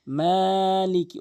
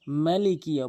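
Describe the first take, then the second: First: "মালিকি" with long held maa; lengthened MA. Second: "মালিকিয়া" with short first vowel; mistaken short MA. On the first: Teacher models one-alif length, "মালিকি" drawn out. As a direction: stretch the first syllable of "মালিকি". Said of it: "এক আলিফ টেনে পড়বেন". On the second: Teacher shows the common mistake, "মালিকিয়া" cut short. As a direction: say "মালিকিয়া" quickly, no stretch. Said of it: "অধিকাংশ লোক মালিকিয়া বলে". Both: Shown as a demonstration.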